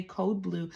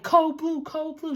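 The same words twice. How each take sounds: First: Said in the usual way. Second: High, loud shout of code blue; retold scream. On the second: Doctor shouting the alarm into the hallway, high loud yell. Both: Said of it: "She starts screaming in the hallway".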